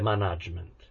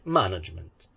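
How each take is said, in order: First: The stress is on the second syllable. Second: The stress is on the first syllable. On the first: The speaker calls it wrong. "Non dite management, perché è brutto" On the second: The speaker calls it right. "Si dice management. ... management è sdrucciola"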